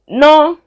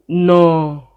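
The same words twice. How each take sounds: First: The word is said on a high pitch. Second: The word is said on a low pitch.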